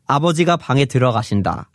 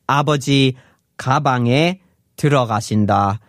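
First: The break comes after abeojiga, before bange. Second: The break comes after abeoji, before gabange.

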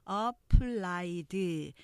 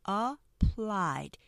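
First: It is broken into many Korean-style syllables. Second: It has two syllables, stressing the last. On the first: The speaker calls it wrong. "applied 이렇게 한국식 음절로 하시면 안 되고요" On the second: The speaker calls it right. "이음절로 발음돼요. 그래서 뒤에 액센트가 강조되면서"

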